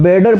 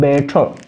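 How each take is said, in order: First: It is said with an American accent, t like d. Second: It is said with a British accent. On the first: "American accent में ... टी ... वो ड होता है" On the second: "British accent के according"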